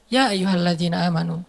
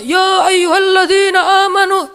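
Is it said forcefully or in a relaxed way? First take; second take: relaxed; forcefully. First: It is said calmly and in a relaxed way. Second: It is said loudly and forcefully, like shouting.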